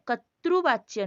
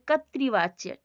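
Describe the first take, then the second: First: The second syllable is sounded as 'ru'. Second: The second syllable is sounded as 'ri'. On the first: This is the Odia way of saying it. The speaker calls it wrong. "कर्तृवाच्य नहीं, वो उड़िया में होता है" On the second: This is the Hindi way of saying it. The speaker calls it right. "तो यहाँ पे कर्तृवाच्य"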